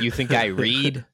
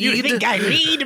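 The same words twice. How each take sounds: First: It is said in a natural speaking voice. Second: It is said in a put-on character voice.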